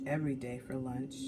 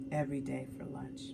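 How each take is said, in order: Both takes have the same delivery.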